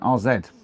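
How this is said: The letter Z is said the British way. "is how British would say that"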